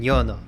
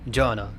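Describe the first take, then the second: First: It starts with a 'y' sound. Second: It starts with an English-style 'j' sound. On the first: The speaker calls it right. "but it's yas and yono" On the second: The speaker calls it wrong. "it's like j, jono"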